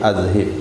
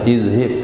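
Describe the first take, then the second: First: The word begins with an a vowel. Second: The word begins with an i vowel. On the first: The speaker calls it right. "tapi azhib" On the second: The speaker calls it wrong. "bukan izhib"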